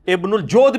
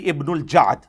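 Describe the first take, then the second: First: The last word has a rounded 'o' vowel. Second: The last word has an open 'a' vowel. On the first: The speaker calls it wrong. "ये जोद लफ्ज गलत है" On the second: The speaker calls it right. "ये जबर के साथ है"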